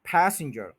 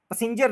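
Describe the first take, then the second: First: Said in the usual way. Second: पैसेंजर with a flat short first vowel, the wrong way; wrong version. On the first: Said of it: "पैसेंजर नहीं". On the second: Shown as a demonstration. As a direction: say पैसेंजर as puh-sin-jer, wrongly. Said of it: "पैसेंजर कोई word नहीं है".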